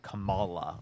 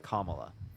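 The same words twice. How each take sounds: First: The name is said in a mocking, altered way. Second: The name is said in its standard way. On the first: This is the version a certain group of voters likes. The speaker calls it wrong. "They always call her Kamala" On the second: This is how the person's name actually goes. The speaker calls it right. "Her name is Kamala"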